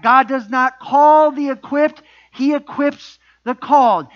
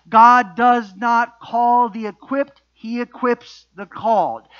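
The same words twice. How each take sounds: First: Slow, louder, emphatic projection; for the back row. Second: Said in the usual way. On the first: Real, not acted. Preacher repeats it for those in the back, projected emphasis. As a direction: project each word slowly to the back. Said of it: "again for you in the back". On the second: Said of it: "Let me say that again".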